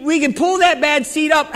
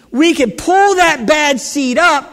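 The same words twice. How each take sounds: First: Said in the usual way. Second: Loud, slow shout, pull punched; slow preaching shout on pull. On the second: Acted. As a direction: proclaim it to the back row. Preacher climax, shout heard.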